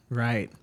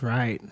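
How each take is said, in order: Both takes have the same delivery.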